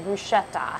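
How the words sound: It is said the American way, with an 'sh' sound.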